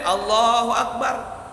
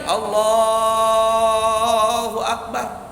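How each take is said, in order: First: The phrase is said short and quick. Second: The phrase is drawn out long.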